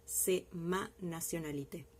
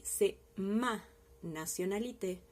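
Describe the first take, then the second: First: Said in the usual way. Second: "ma" leaned on, said slowly; slow model sentence, stress "ma"; teacher modelling "ma". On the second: Shown as a demonstration. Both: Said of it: "voy a utilizar el posesivo ma".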